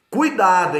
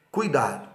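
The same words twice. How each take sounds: First: "Cuidado" called out louder and higher, hit hard; emphatic warning. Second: Said in the usual way. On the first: Shown as a demonstration. Law teacher warning students, loud emphatic "Cuidado". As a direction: say "Cuidado" like it's in bold capitals. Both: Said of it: "em letra maiúscula, negrito e sublinhado".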